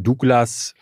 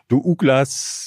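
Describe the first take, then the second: First: Douglas is said with two syllables. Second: Douglas is split into three syllables, Du-Uglas. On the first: This is the usual way to say the name. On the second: Someone who reads it as written says it this way.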